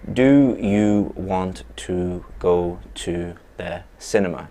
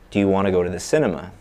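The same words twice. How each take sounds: First: Each word is said separately and fully. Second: The words run together with linked sounds. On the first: The speaker calls it wrong. "a native English speaker does not speak in that way" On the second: The speaker calls it right. "those sounds connect up"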